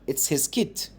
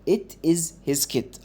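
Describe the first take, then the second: First: The sentence is said quickly, words run together. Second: The sentence is said slowly, word by word.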